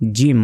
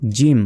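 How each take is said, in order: First: The consonant is said heavily and firmly. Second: The same.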